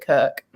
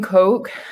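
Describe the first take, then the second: First: It is said in a northern British accent. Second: It is said in a standard accent. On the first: "my northern British accent" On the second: "instead of saying Coke"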